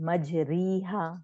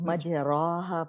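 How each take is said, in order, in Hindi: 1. r के बाद का स्वर लंबा ee है। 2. r के बाद का स्वर लंबा ah है। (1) "कुछ लोग पढ़ते हैं" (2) "कुछ लोग मज राहा पढ़ते हैं"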